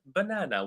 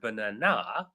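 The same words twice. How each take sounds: First: No syllable is stressed more than another. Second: The stress is on the third syllable. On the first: "with no stress" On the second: "syllable three"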